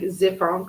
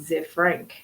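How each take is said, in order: First: The ending is pronounced the French way. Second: The ending is pronounced like English 'frank'. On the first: "like French" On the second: "like Frankenfurter"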